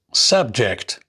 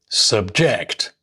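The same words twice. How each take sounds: First: Subject as SUB-ject, first syllable stressed. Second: Subject as sub-JECT, second syllable stressed. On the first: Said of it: "nouns and adjectives normally have the stress on their first". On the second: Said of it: "the stress is shifted onto the second syllables". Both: Shown as a demonstration.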